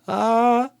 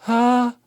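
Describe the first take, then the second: First: The sound starts with a creaky vocal fry onset. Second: The sound starts with an airy, breathy onset. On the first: The speaker calls it right. "if we go" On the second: The speaker calls it wrong. "instead of"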